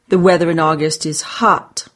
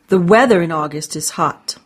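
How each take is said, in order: First: The word hot is stressed. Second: The word weather is stressed. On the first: The weather is hot, not rainy or chilly. "Not rainy or chilly" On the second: It is the weather, not the sun, that is hot. "Not the sun"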